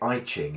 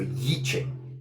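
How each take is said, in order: First: The first syllable sounds like 'eye'. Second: The first syllable sounds like 'yee'. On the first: The speaker calls it wrong. "when we say I Ching in the West" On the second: The speaker calls it right. "pronounce it"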